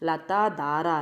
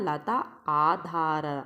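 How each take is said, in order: First: The two words run together into one word. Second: The two words are said as separate words. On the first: The speaker calls it wrong. "ಅದು ಬರೀ ಲತಾಧಾರ ಅಲ್ಲ" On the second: The speaker calls it right. "ಲತಾ ಆಧಾರ ಅದು"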